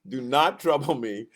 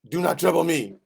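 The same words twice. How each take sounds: First: It is spoken in a plain accent. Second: It is spoken with a French accent.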